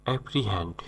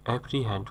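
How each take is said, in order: Both takes have the same delivery.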